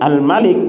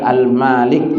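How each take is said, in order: First: The first vowel is said short. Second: The first vowel is said long. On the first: It has a more specific meaning. "bacaan pendek" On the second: It has a broader meaning. "yang dibaca panjang"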